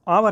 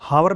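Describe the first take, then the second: First: The word begins directly with a vowel sound. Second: The word begins with an audible h sound. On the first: The speaker calls it right. "ये आवर है, आ ओ की sound है यहाँ पे" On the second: The speaker calls it wrong. "इसको हावर नहीं बोलना"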